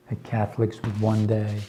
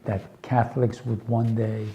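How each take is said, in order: Both takes have the same delivery.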